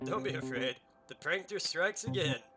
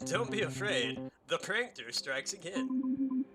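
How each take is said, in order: First: It is said flatly, with little feeling. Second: It is said with lively, energetic feeling.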